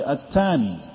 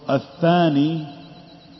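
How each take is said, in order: First: The middle consonant is a hard 't' sound. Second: The middle consonant is a soft 'th' sound. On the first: "they might say atani" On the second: "for the word athani"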